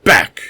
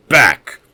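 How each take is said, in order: First: Savage roared command, much louder and higher; tigerish roar. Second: Barked order, much louder and higher; roared command. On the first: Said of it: "in a tigerish roar". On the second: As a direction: stop him dead with a roar. Host threatens Kane with pistol. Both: Acted.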